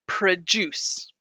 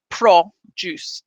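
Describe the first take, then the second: First: The unstressed vowel is a reduced schwa. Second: The unstressed vowel is a full vowel. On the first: The speaker calls it right. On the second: The speaker calls it wrong. "it's not"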